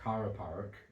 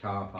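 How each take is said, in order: First: It is said in a Blackburn accent, R sounded. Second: It is said in a Bolton accent, long A.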